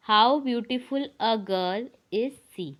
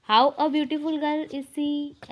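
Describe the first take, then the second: First: Spaced out slowly, word by word; slow dictation. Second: Slow and a little higher; slow wrong example. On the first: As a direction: dictate the right order slowly. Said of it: "sentence इसका सही होता है". (सही वाक्य धीरे धीरे) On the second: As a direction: read the wrong order slowly. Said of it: "ऐसा sentence नहीं बनता". (गलत वाक्य थोड़े ऊँचे स्वर में) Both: Shown as a demonstration.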